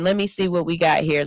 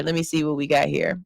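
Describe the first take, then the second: First: Said in the usual way. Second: A quick, lower aside while scanning comments; lower, quicker repeat. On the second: Real, not acted. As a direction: say it again lower and quicker, to yourself. Reading comments, says line twice.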